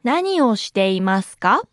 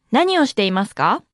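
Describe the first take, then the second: First: 何をしていますか？ word by word, rising at the end. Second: Said in the usual way. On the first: Shown as a demonstration. Teacher's slow model, then natural.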